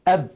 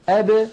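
First: The final b is stopped abruptly, lips pressed shut. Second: The final b is released with a slight bounce. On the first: The speaker calls it wrong. "لا تقول العرب أب هكذا بالتصادم" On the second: The speaker calls it right. "يخرجونها بالتباعد بين طرفي عضو النطق"

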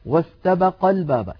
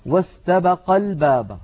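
The two takes are said the same way.

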